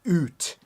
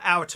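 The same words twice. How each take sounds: First: The word is said with a Canadian vowel. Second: The word is said with an American vowel. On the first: The speaker calls it right. "That's how Canadians say it. That's proper English" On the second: The speaker calls it wrong. "It's not out, Americans"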